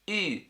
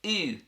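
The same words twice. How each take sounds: Both takes have the same delivery.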